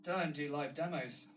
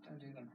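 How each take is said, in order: First: Firm, slow self-scolding "Don't do live demos". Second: Softer muttered "Don't do them"; muttered aside. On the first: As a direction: tell yourself off, punching "Don't". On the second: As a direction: mutter it to yourself. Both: Real, not acted.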